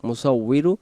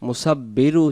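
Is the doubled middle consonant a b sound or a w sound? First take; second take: w; b. First: The doubled middle consonant is a w sound. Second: The doubled middle consonant is a b sound. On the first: The speaker calls it right. "উচ্চারণ হবে মুসাউইরু" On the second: The speaker calls it wrong. "মুসাব্বিরু উচ্চারণ হবে না"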